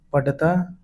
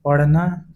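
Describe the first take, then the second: First: पढ़ता with a hard stopped ḍh; पढ़ता without the flap, as पढता. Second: Said in the usual way. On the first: Shown as a demonstration. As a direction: say पढ़ता as paḍḍha-taa. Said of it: "अशुद्ध होता है". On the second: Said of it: "शुद्ध है".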